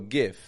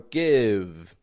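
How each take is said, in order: First: The word ends with a voiceless F sound. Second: The word ends with a voiced V sound. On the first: "make their V's into F sounds" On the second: "Or give"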